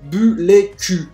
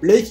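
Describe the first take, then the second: First: Vowels split it into three syllables. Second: It is said as one plain syllable.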